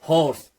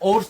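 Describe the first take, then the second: First: The word starts with a clear h sound. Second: The word starts without an h sound. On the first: The speaker calls it right. "ये हॉ का हॉ का sound आ रहा है ना" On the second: The speaker calls it wrong. "इसका pronunciation ओर्स तो नहीं है"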